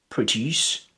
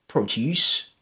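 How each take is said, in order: No difference in how they are said.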